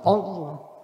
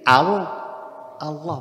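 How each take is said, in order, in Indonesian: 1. Vokalnya diucapkan sebagai 'o' bulat. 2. Vokalnya diucapkan sebagai 'a' terbuka. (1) "bukan Allah" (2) "bukan o, tapi a"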